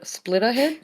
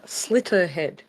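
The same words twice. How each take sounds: First: "Splitterhead" with a p sound after the s, said as a questioning guess; "Splitterhead" said as split-ter-head, not quite sure of the name; mispronounced name. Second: "Slitterhead" said slit-ter-head with no p sound, firm falling tone; "Slitterhead" corrected clearly as slit-ter-head, settling it; corrected name. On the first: Podcaster fumbles the game's title to friends, "Splitterhead" with a p. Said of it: "Sli-, oh, it's called Slitter". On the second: Podcaster corrects the title for friends, "Slitterhead" firm with no p. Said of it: "oh, it's called Slitter".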